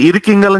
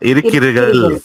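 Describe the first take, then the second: First: The word is said in a shortened, reduced form. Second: The word is said in its full, longer form.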